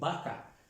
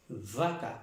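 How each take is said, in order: First: The first sound has both lips pressed together. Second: The first sound has upper teeth on lower lip. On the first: The speaker calls it wrong. "no vaca" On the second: The speaker calls it right. "Normalmente nosotros deberíamos pronunciar vaca"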